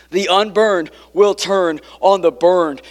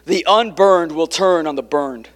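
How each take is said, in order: First: "unburned" and "burned" pressed out slowly; slow, weighted restatement; slow emphatic repeat. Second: Said in the usual way. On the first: Shown as a demonstration. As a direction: lean into "will" and let it land. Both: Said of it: "Like I said earlier".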